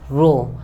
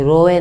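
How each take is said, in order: First: "रो" as one short syllable, ro, meaning row; "रो" said crisply in one beat, like the English row; correct pronunciation. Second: "रोए" said as two syllables, ro-ye, like crying; "रोए" drawn out with an extra ye sound, the wrong way; wrong pronunciation. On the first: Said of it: "R O W". ("रो" को एक ही छोटे शब्दांश में, अंग्रेज़ी row जैसा) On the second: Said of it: "रो नहीं, रोए नहीं". ("रोए" को रो-ए की तरह, दो हिस्सों में बोलना) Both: Shown as a demonstration.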